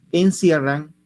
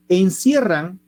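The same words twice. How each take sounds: First: Said in the usual way. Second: Encierran hit high and loud; emphatic word. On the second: Shown as a demonstration. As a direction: punch Encierran for the class. Reads the key word aloud, emphatic. (Encierran con énfasis)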